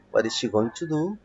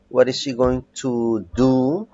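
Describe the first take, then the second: First: Said in the usual way. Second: Slow modelled question. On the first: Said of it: "teacher repeats at normal pace". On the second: Shown as a demonstration. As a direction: say it slowly so students follow. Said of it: "teacher models the question". (pregunta modelo, lenta)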